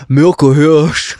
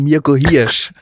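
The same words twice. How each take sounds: First: Mirko Hirsch with i rounded to ü, like "Mürko Hürsch"; rounded vowel pronunciation. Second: Mirko Hirsch with clean, unrounded i vowels; stretched, correct "Mirko Hirsch" with pure i, no ü; clear i pronunciation. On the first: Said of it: "Werde aber nicht, hier steht es, Mirko Hirsch, sondern Mirko Hirsch gesprochen". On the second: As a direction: say "Mirko Hirsch" slowly with a spread "ie" sound, like "Mierko Hiersch". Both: Shown as a demonstration.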